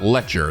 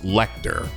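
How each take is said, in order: First: The name ends with a 'cher' sound. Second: The name ends with a 'ter' sound. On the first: The speaker calls it wrong. "it's not Lecture" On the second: The speaker calls it right. "it's Lecter"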